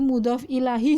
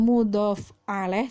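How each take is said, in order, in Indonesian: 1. Kata kedua berakhir dengan h lalu i. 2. Kata kedua dimulai dengan vokal a. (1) "Apalagi mudhof ilahi juga bukan" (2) "Bukan juga mudhof alaih, juga bukan"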